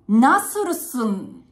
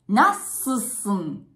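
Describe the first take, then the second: First: Every syllable is said fully, including the middle vowel. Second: The middle vowel is dropped, sounding like nassusun. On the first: The speaker calls it wrong. "カタカナで書くと、ナスルスンになっちゃうけど" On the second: The speaker calls it right. "言うときはね、ナッススン"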